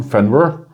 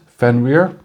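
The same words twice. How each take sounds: First: Fenrir said "FEN-rur", reduced last syllable; American pronunciation. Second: Fenrir said "FEN-reer", full ee in the last syllable; original-style pronunciation. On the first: Reviewer showing how it's said back home, Fenrir as American "FEN-rur". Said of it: "as we do say back home". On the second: Coin reviewer presenting the wolf's name, Fenrir pronounced "FEN-reer". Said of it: "or in America". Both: Shown as a demonstration.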